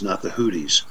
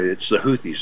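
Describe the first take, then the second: First: The name sounds like 'Hootie' with a t. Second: The name does not sound like 'Hootie'. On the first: The speaker calls it wrong. "The Houthis run around with blowfish" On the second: The speaker calls it right.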